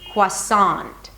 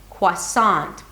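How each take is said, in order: First: The first syllable starts with kw and ah. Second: The first syllable starts with kw and ah.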